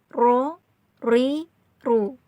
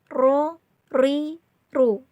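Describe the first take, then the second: No difference in how they are said.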